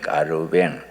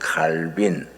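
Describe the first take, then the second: First: The name is said as Kkareubaeng. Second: The name is said as Kalbin.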